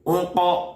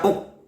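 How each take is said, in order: First: The q sound ends with a clear bounce. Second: The q sound is clipped with no bounce. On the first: The speaker calls it right. "pantulkan huruf qafnya" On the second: The speaker calls it wrong. "Tidak boleh dibaca uk"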